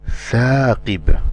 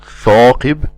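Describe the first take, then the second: First: The first sound is light, tongue back relaxed. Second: The first sound is heavy, tongue back raised. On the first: The speaker calls it right. "we do not elevate the back of the tongue" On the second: The speaker calls it wrong. "not ثاقب"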